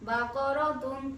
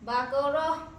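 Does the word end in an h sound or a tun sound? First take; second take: tun sound; h sound. First: The word ends with a full tun sound. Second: The word ends with a soft h sound. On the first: The reading continues without stopping. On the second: The reader stops on this word.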